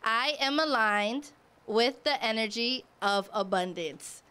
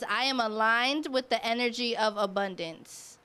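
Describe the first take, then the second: First: It is said broken up with pauses. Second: It is said smoothly without pauses.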